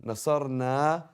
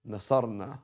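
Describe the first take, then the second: First: "نصرنا" with the last "نا" held long; "نصرنا" louder and higher, ending on a lengthened vowel; long final vowel. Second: "نصرنا" with the last "نا" cut short; "نصرنا" ending on a brief "na"; shortened final vowel. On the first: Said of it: "this is where tajweed comes in". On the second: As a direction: drop the long aa ending of "نصرنا". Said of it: "You're gonna change the meaning totally". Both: Shown as a demonstration.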